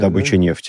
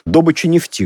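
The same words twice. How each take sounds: First: The word has the everyday stress placement. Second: The word has the professional stress placement. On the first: The speaker is an outsider to the industry. "мы, не знающие, как это мышление, говорим" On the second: The speaker works in the oil industry. "говорят нефтяники"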